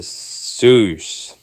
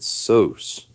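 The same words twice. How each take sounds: First: "sauce" drawn out as "soos"; mispronounced sauce. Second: "Sauce" said as "sohs"; mispronounced sauce. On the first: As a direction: say "sauce" with a long OO vowel. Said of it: "I think I pronounced sauce". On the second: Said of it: "maybe these guys pronounce it different". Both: Retold or imitated.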